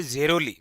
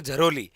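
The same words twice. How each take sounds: First: जेरोली opening on an unaspirated "je"; first name variant. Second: झरोली opening with short "a", "jha-ro-li"; alternative name variant. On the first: Teacher naming an Alwar village, first pronunciation variant. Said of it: "या जिसे बोलते हैं झरोली". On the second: Teacher giving the village's other name, alternative pronunciation variant. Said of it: "या जिसे बोलते हैं". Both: Shown as a demonstration.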